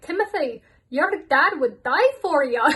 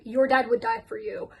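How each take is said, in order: First: Higher, louder hammed-up Scottish stepmom; mock Scottish accent. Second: Said in the usual way. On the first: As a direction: do a Scottish stepmom consoling her stepson, over the top. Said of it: "My apologies to the whole of Scotland". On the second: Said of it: "Sheila literally said".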